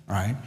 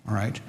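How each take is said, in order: No difference in how they are said.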